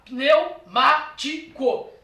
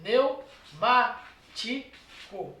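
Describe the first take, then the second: First: Pneumático said very slowly, syllables spaced pi-neu-má-ti-co. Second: Pneumático drawn out very slowly, pneu kept together; slow divided syllables. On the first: Teacher dividing pneumático into syllables for students, slow. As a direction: spell out pneumático slowly by sound. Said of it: "Olha lá". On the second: Teacher showing the split of Pneumático, very slow. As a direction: stretch Pneumático, syllables held apart. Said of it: "Dividiu em sílabas". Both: Shown as a demonstration.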